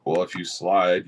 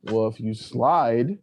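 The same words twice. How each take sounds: First: Slow drawl. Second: Slower drawl. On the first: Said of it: "slow deliberate line delivery". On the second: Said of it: "slower retake of the line". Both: Shown as a demonstration.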